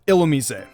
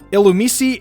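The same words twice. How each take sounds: First: The middle consonant sounds like z. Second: The middle consonant sounds like s. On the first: The speaker calls it right. "the S in the proper pronunciation sounds like a Z" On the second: The speaker calls it wrong. "instead of"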